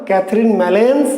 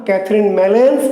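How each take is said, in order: Both takes have the same delivery.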